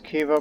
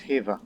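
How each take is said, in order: First: The word begins with a K sound. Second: The word begins with an H sound. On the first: The speaker calls it wrong. "I keep pronouncing that area as Kiva" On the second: The speaker calls it right. "I found out recently it's Hiva. The K is silent"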